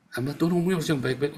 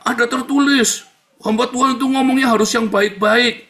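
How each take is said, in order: First: Fast, offhand restating; quick repeat. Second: High, loud imitated admonition; mock preachy critic. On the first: Acted. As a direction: rattle the rule off without proclaiming it. Repeats critic's rule more softly. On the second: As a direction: proclaim the rule like a self-righteous objector. Acts out critics citing scripture.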